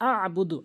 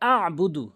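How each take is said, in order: The two takes are said the same way.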